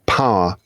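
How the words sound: The word is said in a posh accent.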